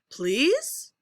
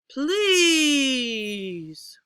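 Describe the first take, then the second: First: The pitch rises on the word. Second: The pitch rises and then falls. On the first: "We'll do rising" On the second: "Rising, falling"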